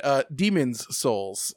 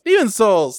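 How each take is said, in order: First: Said in the usual way. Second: Demon's Souls called out higher and louder; excited. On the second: Real, not acted.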